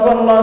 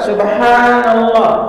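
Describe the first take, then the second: First: It is said quickly with a short 'ha' vowel. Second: It is said slowly with a long 'ha' vowel. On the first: The speaker calls it wrong. "kalau zikir saking cepatnya, haknya dipendekin" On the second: The speaker calls it right. "kita baca pelan"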